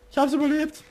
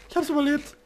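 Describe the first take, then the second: First: Excited relief. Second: Excited. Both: Real, not acted.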